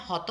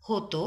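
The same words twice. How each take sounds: First: হত read as the rejected form, final vowel sounded; হত with the wrong ending the teacher rejects; হত said with the end vowel voiced, as not to say it. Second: হত said slowly as হ-তো, final অ as ও; slow model হত with an o ending; হত drawn out, ending on a clear o; correct way. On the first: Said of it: "এটা কিন্তু হবে না". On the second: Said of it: "এটা হবে হত". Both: Shown as a demonstration.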